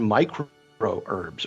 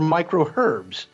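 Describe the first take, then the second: First: It is said in an American accent. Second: It is said in a British accent.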